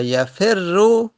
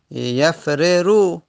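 First: Slow "یفرو" as ya-fer-ru, r held; merged double r. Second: Slow "یفررو" as yaf-re-ru; unmerged original form. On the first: Teacher giving the merged form, "یفرو" drawn out with geminated r. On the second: Teacher showing the original form, "یفررو" drawn out with each r separate. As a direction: split "یفررو" into two separate r syllables. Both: Shown as a demonstration. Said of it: "اصلش بوده".

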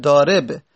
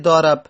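First: Said in the usual way. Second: ضارب said "daarab", a in the last syllable; fatha on the ra. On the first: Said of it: "در اسم فاعل ضارب". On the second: Shown as a demonstration. Teacher altering the participle's vowel, fatha on ra. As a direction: swap the i of ضارب for an a.

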